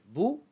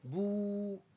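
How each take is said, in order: First: The vowel is short. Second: The vowel is long. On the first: "la noire toute seule" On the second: "avec la bleue"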